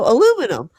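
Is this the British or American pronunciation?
American. It is said with four syllables, American style. The speaker himself said it. "I said, "No, aluminum.""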